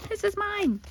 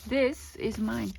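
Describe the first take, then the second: First: Much higher, teasing claim; playful possessive squeal. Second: Said in the usual way. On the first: Shown as a demonstration. Vlogger teasing viewers she keeps the fabric, high squeal. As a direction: squeal it like a kid hugging a toy. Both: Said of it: "I'm sorry, guys".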